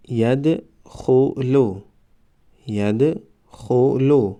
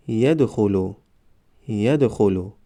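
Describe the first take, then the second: First: Slow, syllables held and separated; slow syllable reading. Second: Said in the usual way. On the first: Shown as a demonstration. Teacher models first readings for learners, slow syllable by syllable. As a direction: sound it out for learners, pausing between syllables. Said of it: "بار یکم و دویم آهسته". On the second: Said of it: "به مثل خوانش سوم و چهارم".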